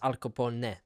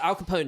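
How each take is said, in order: First: The name is said with an Italian pronunciation. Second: The name is said with an American pronunciation. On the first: "want to say it the Italian way" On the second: "Al Capone in America"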